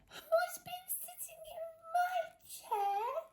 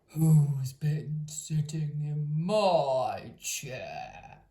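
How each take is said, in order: First: It is said in a tiny squeaky voice. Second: It is growled in a great gruff voice.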